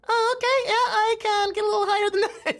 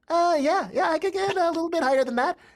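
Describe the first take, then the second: First: The voice is at a very high pitch. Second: The voice is at a middle, raised pitch.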